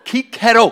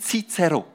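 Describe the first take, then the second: First: The name begins with a k sound. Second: The name begins with a ts sound. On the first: The speaker calls it right. "es heisst Cicero" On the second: The speaker calls it wrong. "Es heisst nicht Cicero"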